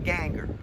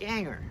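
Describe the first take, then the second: First: It sounds like anger with a G before it. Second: It rhymes with the word hanger. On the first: "I used the hard G all the way ... it's anger with a G in front of it" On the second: "My dad pronounced it to rhyme with hanger"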